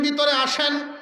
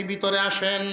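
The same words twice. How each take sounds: First: Higher-pitched call of invitation; lightly acted welcoming call. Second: Said in the usual way. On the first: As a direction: call the guest inside with raised pitch. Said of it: "এমনি ডাক দিছেন". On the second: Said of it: "ভিতর থেকে আওয়াজ আসছে".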